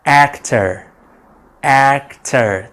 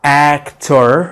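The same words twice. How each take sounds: First: Actor ending in a light quick er; right actor. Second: Actor with a full o in the ending tor; wrong actor. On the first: Teacher showing learners the right actor. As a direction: say actor as akter, the end weak. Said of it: "ما تنطقش ال er بشكل واضح". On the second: Teacher warning against the wrong actor. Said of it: "فما تقولش". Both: Shown as a demonstration.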